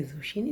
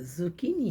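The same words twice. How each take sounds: First: ज़ुशीनी with "sh" in the middle; wrong pronunciation of zucchini. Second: ज़ुकीनी with a hard "k"; slow ज़ुकीनी, middle syllable "kee"; corrected pronunciation of zucchini. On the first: Teacher recalls an old mistake, ज़ुशीनी with "sh". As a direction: say ज़ुशीनी, middle syllable "shee". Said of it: "ज़ुशीनी नहीं है". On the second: Teacher sets the mistake right, ज़ुकीनी with hard "k". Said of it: "ये ज़ुकीनी है". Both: Shown as a demonstration.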